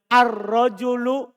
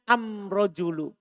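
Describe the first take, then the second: First: It uses the standard Arabic article al. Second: It uses the Himyarite article am.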